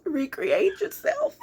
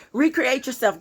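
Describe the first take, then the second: First: High, slow, put-on whine; silly high voice. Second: Said in the usual way. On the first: Reader jokingly giving the day's advice, silly high voice. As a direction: draw it out high and playful. Silly voice, then "let me stop. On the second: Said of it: "Okay, let me stop".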